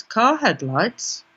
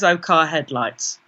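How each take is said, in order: First: "Car headlights?" drawn out slowly, rising at the end; softer, slow, doubting question on "Car headlights?"; questioning inner thought. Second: Lower, falling "Oh, car headlights"; matter-of-fact inner thought. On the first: Her head doubts its explanation of the second glow, questioning "Car headlights?". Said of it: "And my head goes". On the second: Her head explains away the orange glow, matter-of-fact thought. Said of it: "my head just says". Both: Retold or imitated.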